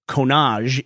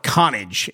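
First: The name is said with an American pronunciation. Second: The name is said with a Northern Scottish pronunciation. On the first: "if you're from America" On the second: "if you're Northern Scotland"

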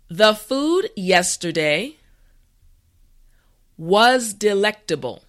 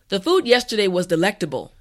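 First: The sentence is said slowly and carefully. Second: The sentence is said at a natural pace. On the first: "this time repeat after me" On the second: "this time we will go at a more natural pace"

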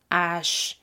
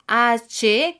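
First: The letter is named with French pronunciation. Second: The letter is named with Spanish pronunciation. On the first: "que se convierte en H" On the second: "La letra H"

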